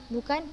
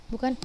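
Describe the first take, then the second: The two takes are said the same way.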